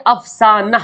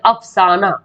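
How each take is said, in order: First: अफसाना ending "-nah", with sounded "h"; as written. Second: अफसाना ending open "-naa", no "h"; as spoken. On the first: Teacher reading out the spelling, अफसाना as "af-saa-nah". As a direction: end अफसाना on an audible "h". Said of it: "ये लिखा हुआ क्या". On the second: Teacher showing everyday speech, अफसाना as "af-saa-naa". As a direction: leave the "h" off अफसाना. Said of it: "हम लोग बोलते हैं". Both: Shown as a demonstration.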